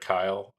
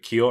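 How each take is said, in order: First: The vowel sounds like 'eye', as in 'mile'. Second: The vowel sounds like 'ee', as in 'feel'. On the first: The speaker calls it right. "Or is it Kyle?" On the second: The speaker calls it wrong. "am I saying that right?"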